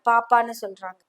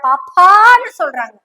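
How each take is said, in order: First: The word paappa is said plainly, without emphasis. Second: The word paappa is said with strong emphasis.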